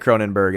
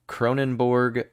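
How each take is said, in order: First: The last syllable sounds like 'berg'. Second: The last syllable sounds like 'borg'. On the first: "probably Cronenberg" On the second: "you said Cronenborg"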